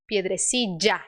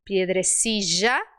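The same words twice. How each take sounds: First: "piedrecilla" with LL as a stopped DJ; low "piedrecilla", cut into a hard dj at LL; DJ sound. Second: Slow, low "Piedrecilla", smooth J and rising end; J sound. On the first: Teacher contrasting DJ with J, hard-DJ "piedrecilla". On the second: Teacher contrasting J with DJ, smooth-J "Piedrecilla". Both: Shown as a demonstration. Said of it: "diferença entre o J e o D J".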